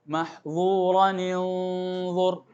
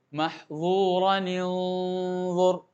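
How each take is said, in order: Both takes have the same delivery.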